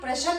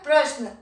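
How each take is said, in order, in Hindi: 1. एक स्वर श और न की आवाज़ों को अलग करता है। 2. श बिना किसी स्वर के न से जुड़ता है। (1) "हम प्रश्न नहीं बोलते हैं" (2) "आधे श की आवाज आती है"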